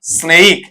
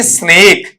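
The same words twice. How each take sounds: First: स्नेक with a gliding vowel, "sne-ik"; corrected pronunciation. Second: स्नेक with a single long "e", "snek"; common mispronunciation. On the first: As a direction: stretch स्नेक into a diphthong, "snay-ik". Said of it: "इसका उच्चारण क्या निकल कर आता है". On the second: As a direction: say स्नेक with one pure vowel. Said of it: "ये स्नेक नहीं होता है". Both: Shown as a demonstration.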